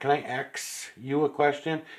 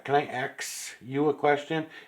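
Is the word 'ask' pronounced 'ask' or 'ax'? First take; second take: ask; ask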